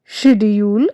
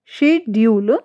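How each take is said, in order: First: शेड्यूल with the 'shi' sound; wrong pronunciation. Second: शेड्यूल as she-diu-l; correct pronunciation. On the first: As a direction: say शेड्यूल as shi-jul. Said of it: "ये wrong है". (गलत उच्चारण शेड्यूल) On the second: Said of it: "right हमारा शेड्यूल". (सही उच्चारण शेड्यूल) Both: Shown as a demonstration.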